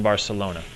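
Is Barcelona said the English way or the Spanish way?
English. It is said with English pronunciation.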